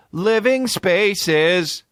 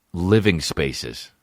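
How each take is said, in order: First: High, drawn-out slogan sign-off; mock ad tagline. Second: Said in the usual way. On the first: Soccer star signing off a furniture ad, mock tagline. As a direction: stretch the brand name in a high parody ad voice. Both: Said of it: "Do an ad for fucking".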